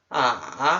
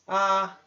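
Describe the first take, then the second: First: The pitch falls and then rises. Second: The pitch stays level and high. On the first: "Terceiro tom" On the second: "primeiro tom"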